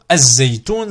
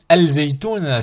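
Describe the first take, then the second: First: The L merges into a doubled Z sound. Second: The L of the article is clearly pronounced. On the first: The speaker calls it right. "c'est plus fluide et c'est plus simple" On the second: The speaker calls it wrong. "c'est dur"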